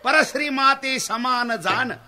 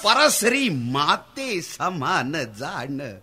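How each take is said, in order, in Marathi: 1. माते हा शब्द जोर न देता म्हटला आहे. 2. माते हा शब्द जोरदारपणे म्हटला आहे. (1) "सरळ बोलतो" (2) "माता या शब्दावर जोर देऊ नको, अर्थ वेगळा होतोय"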